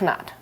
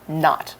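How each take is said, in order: First: The word starts with a sounded K before N. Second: The word starts with an N sound, no K. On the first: The speaker calls it wrong. "not knot" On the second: The speaker calls it right. "We don't pronounce the K sound. So knot"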